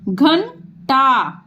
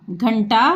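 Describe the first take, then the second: First: घंटा stretched syllable by syllable; slow sounding out. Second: Said in the usual way. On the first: Shown as a demonstration. Teacher to pupils, sounding out घंटा. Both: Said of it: "जैसे ये हम दिखा रहे हैं".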